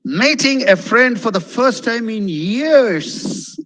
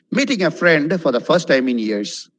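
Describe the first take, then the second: First: Slow, higher pitch swooping up over "years"; heartfelt lilt, "years" stretched out; expressive intonation. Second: Dull delivery, "years" just falling away; no intonation. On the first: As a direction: draw it out with big pitch waves to "years". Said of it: "see how I speak". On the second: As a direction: say it without lifting "friend" or "years". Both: Shown as a demonstration.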